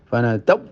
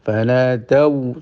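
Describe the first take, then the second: First: The final sound is cut off in a hard stop. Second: The final sound is pressed but stays soft. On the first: The speaker calls it wrong. "tidak betul" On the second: The speaker calls it right. "ditekan tapi tidak sampai mandek"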